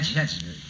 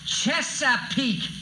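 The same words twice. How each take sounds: First: It is said at normal volume. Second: It is said louder.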